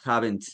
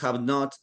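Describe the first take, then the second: First: It is contracted, with a strong final T. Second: It is said as two separate full words. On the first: "tenemos que hacerle un énfasis en la T al final" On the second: "que se entiende obviamente súper claro"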